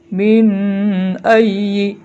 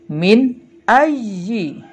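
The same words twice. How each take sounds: First: The n is nasalized and blurred into the next word. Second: The n is pronounced clearly without any nasal hum. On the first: The speaker calls it wrong. "nggak boleh ... salah ya" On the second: The speaker calls it right. "Nunnya dibaca sangat jelas"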